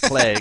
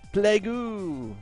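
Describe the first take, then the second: First: The word ends plainly with no added vowel. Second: The word ends with an added 'oo' vowel. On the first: "instead of plague" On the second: "Chinese English. Plague-oo!"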